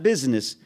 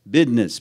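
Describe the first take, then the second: First: The middle is said with the usual 'z' sound. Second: The middle is said with a 'd' sound, 'bidness'. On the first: The speaker calls it wrong. "Not business" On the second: The speaker calls it right.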